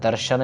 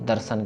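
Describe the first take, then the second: First: The middle consonant is an 'sh' sound. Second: The middle consonant is an 's' sound. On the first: The speaker calls it wrong. "दर्शन नहीं" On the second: The speaker calls it right. "दर्शन सस्सा है"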